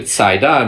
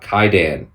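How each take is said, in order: First: The word begins with a ts sound. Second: The word begins with a hard k sound. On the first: The speaker calls it right. "It's a c sound" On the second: The speaker calls it wrong. "not a k"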